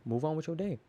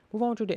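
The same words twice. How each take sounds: First: Said in the usual way. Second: Emphatic repeat. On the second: Real, not acted. Repeats line, higher and louder.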